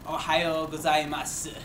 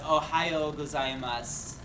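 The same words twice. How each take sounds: First: The final u sound is clearly pronounced. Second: The final u sound is dropped. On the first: The speaker is being dramatic. "Sometimes they do in like if you're being dramatic" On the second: It is the ordinary everyday greeting. "you don't pronounce the U at the end"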